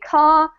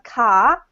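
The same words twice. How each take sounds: First: It is said in a southern British accent. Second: It is said in an Australian accent.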